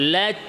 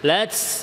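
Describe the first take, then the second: First: The final t stops cleanly without any hiss. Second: The final t releases with an s-like hiss. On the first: The speaker calls it right. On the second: The speaker calls it wrong.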